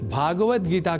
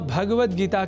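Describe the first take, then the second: First: The first vowel is long. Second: The first vowel is short. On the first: The speaker calls it wrong. "अतिरिक्त स्वर को भी कई बार पदों में जोड़ लेते हैं" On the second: The speaker calls it right. "भगवत Gita के स्थान पर"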